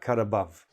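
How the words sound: Neither word is stressed; the delivery is flat. It is just the expression. "I'm not stressing either one"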